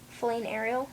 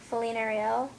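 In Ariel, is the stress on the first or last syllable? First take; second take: first; last. First: Ariel is stressed on its first syllable. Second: Ariel is stressed on its last syllable. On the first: The speaker calls it wrong. "this doesn't sound right" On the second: The speaker calls it right. "like stressing the L part"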